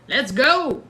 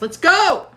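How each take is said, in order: First: Said in the usual way. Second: Higher, louder shout of let's go; excited cheer. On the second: Real, not acted. Host cheering viewers' meetup plan, loud and excited. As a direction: cheer it like a hype call.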